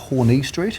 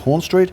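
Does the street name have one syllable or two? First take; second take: two; one. First: The name has two syllables, ending in 'ee'. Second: The name has one syllable, the e silent. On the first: The speaker calls it wrong. "it's not called Horney Street" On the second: The speaker calls it right. "there is a silent E at the end"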